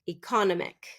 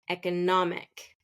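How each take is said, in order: First: The stress is not on the third syllable. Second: The stress is on the third syllable. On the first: The speaker calls it wrong. "that is not correct" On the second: The speaker calls it right. "third syllable stress"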